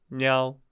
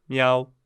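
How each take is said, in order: The two takes are said the same way.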